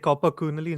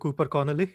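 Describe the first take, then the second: First: The vowels are swapped, giving Copper Coonley. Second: The name is said as Cooper Connolly. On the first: This is how the other person says the name. The speaker calls it wrong. "you say Copper Coonley" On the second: This is the name as it is normally said. The speaker calls it right. "instead of Cooper Connolly"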